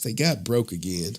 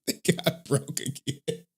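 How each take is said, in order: First: Said in the usual way. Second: Slow, softer deadpan repeat; stunned, slow repeat of the bad news; slow disbelief. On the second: Real, not acted. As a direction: let it sink in, drawn out.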